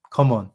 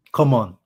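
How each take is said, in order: Both takes have the same delivery.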